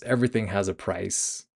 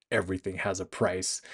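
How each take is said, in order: First: Said in the usual way. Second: Softer, menacing echo of "Everything has a price"; hushed menace aimed at the man on the phone; quiet threat. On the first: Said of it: "Yosef says". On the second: Retold or imitated. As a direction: hand his own words back as a threat. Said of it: "threateningly turns that back on him".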